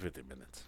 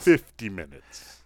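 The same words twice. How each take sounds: First: The number is mumbled and sounds like fifteen. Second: The number is enunciated carefully as fifty. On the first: The speaker calls it wrong. "You got to enunciate better. Sounds like 15" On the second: The speaker calls it right. "that was very well said"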